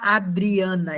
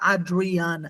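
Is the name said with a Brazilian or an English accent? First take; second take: Brazilian; English. First: The name is said with a Brazilian accent. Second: The name is said with an English accent. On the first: "o estrangeiro não consegue falar Adriana" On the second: "ele vai falar Adriana"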